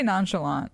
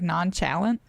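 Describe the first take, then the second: First: Nonchalant with a French-style nasal ending, lightly stressed last syllable; her own pronunciation. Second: Nonchalant said as NAHN-chuh-lun, hard ch, last syllable reduced and clipped short; Tommy's pronunciation. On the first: Streamer showing chat how she says it: nonchalant as nahn-shuh-LAHNT. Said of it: "I say nonchalant". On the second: Streamer guessing how the game character said it: nonchalant as NAHN-chuh-lun, rising. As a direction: nonchalant with a ch sound and a swallowed ending, questioning rise. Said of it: "Did he say, like". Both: Shown as a demonstration.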